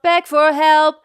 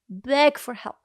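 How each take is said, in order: First: All three words get equal weight. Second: The words get uneven, natural weight. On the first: The speaker calls it wrong. "It's not beg for help. It's not all equal" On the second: The speaker calls it right. "That's how I would speak it"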